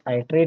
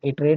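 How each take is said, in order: First: The word begins with an 'eye' sound. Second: The word begins with a short 'ih' sound. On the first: "कुछ लोग इसको आइटरेट बोलते हैं" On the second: "कुछ लोग इसको इटरेट बोलते हैं"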